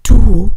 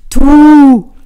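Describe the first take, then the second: First: Loud, overdone reply at normal pitch; exaggerated answer. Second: Long, high, very loud hoot; playful call. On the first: Line answers Trini's playful call, exaggerated and loud. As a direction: throw it back with mock emphasis. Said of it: "antwortete mit einem übertriebenen". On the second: Trini calls to Line ahead on the ice, playful shout. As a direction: holler it playfully, drawn out. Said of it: "rief sie spielerisch". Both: A narrator's reading.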